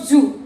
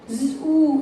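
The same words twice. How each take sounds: First: The vowel is short. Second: The vowel is long. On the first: The speaker calls it wrong. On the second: The speaker calls it right.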